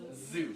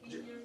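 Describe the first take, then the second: First: The word begins with a Z sound. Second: The word begins with a J sound. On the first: The speaker calls it right. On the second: The speaker calls it wrong. "the Z sound comes out as a J"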